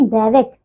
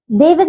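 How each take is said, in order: First: दैविक with "ai": daivik; correct pronunciation. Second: दैविक with "e": devik, pitched up; mispronunciation. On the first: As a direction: open the first vowel of दैविक. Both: Shown as a demonstration. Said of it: "दैविक नहीं".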